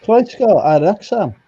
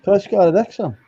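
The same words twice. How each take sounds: First: Croesgo ar Wrexham said slowly in Welsh; Welsh phrase, slowly. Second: Croesgo ar Wrexham said again at normal pace; Welsh phrase repeated. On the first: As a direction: sound out Croesgo ar Wrexham deliberately. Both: Shown as a demonstration. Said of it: "let me do something in Welsh".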